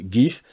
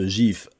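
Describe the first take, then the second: First: It starts with a hard g sound. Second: It starts with a soft, French-style sound. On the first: This is the English way of saying it. "les Anglais disent GIF, comme gift pour cadeau, hein, ou girl" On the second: This is the French way of saying it. "je prononce GIF à le- la française"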